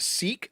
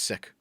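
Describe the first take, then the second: First: The vowel is long, like 'seek'. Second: The vowel is short, like 'sick'. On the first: This is the usual way in English. "It's pronounced seek" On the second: This is the way it is said in the original language. "in their language it's actually pronounced sick"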